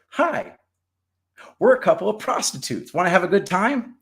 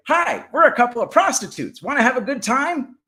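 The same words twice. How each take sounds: First: High squawky parrot squeal. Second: High, louder parrot squawk. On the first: Retold or imitated. Woman imitating her parrots to the priest, high parrot voice. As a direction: pitch it way up like a parrot repeating a line. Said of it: "all they ever do is say". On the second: Acted. Parrots greeting the praying parrots, high parrot voice. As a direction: chirp it up high like a cheeky parrot. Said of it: "the woman's parrots say".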